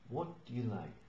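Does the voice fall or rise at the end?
fall. The voice falls at the end. The speaker calls it right. "But what do you like?"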